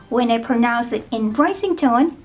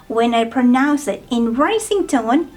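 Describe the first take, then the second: Both takes have the same delivery.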